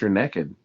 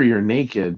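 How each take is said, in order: First: It is said in a Texan drawl. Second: It is said in a plain, neutral accent. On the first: "If you're down in Texas" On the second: "if you're here"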